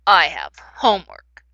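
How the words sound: The voice sounds mad. The speaker is angry about having homework. "If I was mad, it might sound like this"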